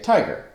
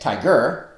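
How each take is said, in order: First: The stress is on the first syllable. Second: The stress is on the second syllable. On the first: The speaker calls it right. "stressed, unstressed, as in the word tiger" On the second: The speaker calls it wrong. "We don't say tiger"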